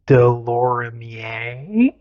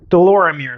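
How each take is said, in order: First: "Delorimier" slowly sounded out French-style, ending "-ee-AY", rising; questioning, drawn-out "Delorimier" with a rising "-ay" ending; alternative pronunciation. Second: "Delorimier" said briskly, ending "-meer"; matter-of-fact "Delorimier" with an anglicized "-meer" ending; settled pronunciation. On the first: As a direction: try "Delorimier" slowly as "de-lor-im-ee-AY?". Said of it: "how it's pronounced". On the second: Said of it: "is what I'm going with". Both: Shown as a demonstration.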